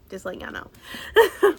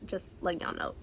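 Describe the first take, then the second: First: Higher, louder teasing repeat; playful emphasis. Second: Said in the usual way. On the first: Real, not acted. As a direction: sing it out playfully to the viewers.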